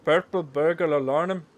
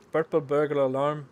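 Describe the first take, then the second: First: Loud, slow mock Scottish accent; the best loud attempt at a Scottish accent. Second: Loud mock Scottish accent. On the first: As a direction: roll it out slowly in a hammed-up Scottish accent. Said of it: "I think that was the best one". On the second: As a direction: shout it in a hammed-up Scottish accent. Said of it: "Say purple burger alarm in a Scottish accent".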